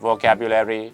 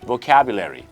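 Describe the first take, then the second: First: All syllables sound even, with no stress. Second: One syllable carries clear, strong stress. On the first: The speaker calls it wrong. "ชาวไทยบางคนครับออกเสียงเป็นโมโนโทน" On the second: The speaker calls it right. "อันที่ถูกต้องต้องเป็น"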